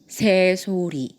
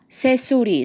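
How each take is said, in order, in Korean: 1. 's' 소리는 부드럽고 느리고 편안한 소리입니다. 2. 's' 소리는 공기가 새면서 쉭쉭 나는 소리입니다. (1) "힘을 최대한 조금 풀어주면서 천천히 발음해 볼게요" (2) "이렇게 새는 소리가 나는 분들"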